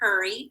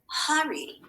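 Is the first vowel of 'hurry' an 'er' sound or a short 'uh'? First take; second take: er; short uh. First: The first vowel is an 'er' sound. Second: The first vowel is a short 'uh' sound. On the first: This is one regional way of saying it. "I say it with the er" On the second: This is another regional way of saying it. "It's making that short sound"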